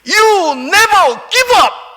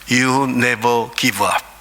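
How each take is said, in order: First: It is said in a loud voice. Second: It is said in a low, quiet voice.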